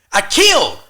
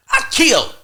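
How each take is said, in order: First: "I killed" said higher and louder, stress on killed; loud insistence. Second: "I killed" repeated much higher and louder, near a cry; escalated insistence. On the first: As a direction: punch "killed" hard and high. Insisting he did well. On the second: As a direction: hit "I killed" at the peak of the voice. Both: Retold or imitated.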